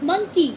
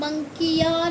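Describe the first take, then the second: First: The word ends with an 'ee' sound. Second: The word ends with a 'ya' sound. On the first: The speaker calls it right. "क्या पढ़ते हैं इसको हम" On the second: The speaker calls it wrong. "इसे हम मंकिया नहीं पढ़ते हैं"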